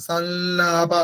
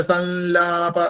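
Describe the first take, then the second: Both takes have the same delivery.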